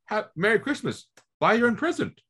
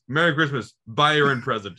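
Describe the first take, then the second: First: It sounds playful and joking. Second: It sounds cold and mean.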